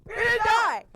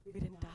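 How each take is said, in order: First: High, loud shout of relief; elated relief. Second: Soft, small-voiced disbelief; stunned relief. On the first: Retold or imitated. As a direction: burst out yelling that you survived. Retold landing, then shouted take. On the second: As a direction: say it softly, as if stunned. Retold landing, first stunned take.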